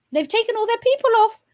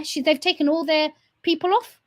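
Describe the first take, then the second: First: Mocking high repeat. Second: Said in the usual way. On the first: Real, not acted. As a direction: repeat it much higher and louder, in disbelief. Mocking repeat of previous line.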